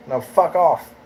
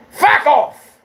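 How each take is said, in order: First: Said in the usual way. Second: Sudden high, loud yell; explosive, high-pitched yelled dismissal; angry shout. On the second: Real, not acted.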